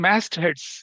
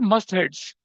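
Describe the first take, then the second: First: The first syllable sounds like 'mast'. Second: The first syllable sounds like 'must'. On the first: The speaker calls it right. "It is मैस्ट heads" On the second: The speaker calls it wrong. "It is not मस्ट heads"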